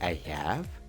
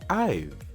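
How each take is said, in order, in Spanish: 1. Ambas palabras se dicen completas y por separado. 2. Las palabras se unen en una sola sílaba corta. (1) "En vez de decir I have" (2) "mejor di I've"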